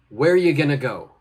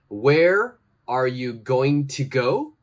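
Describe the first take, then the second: First: Words are dropped and blended into reduced forms. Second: Every word is said fully and separately.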